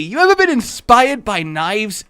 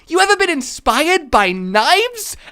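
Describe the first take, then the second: First: It is said in a plain, neutral tone. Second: It is said in a cheerful, friendly tone. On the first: The speaker sounds like a menacing stranger. "you can't say that without sounding like you're about to murder the person" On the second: The speaker sounds like a friendly but still menacing stranger. "Like you're gonna get murdered by someone happily laughing"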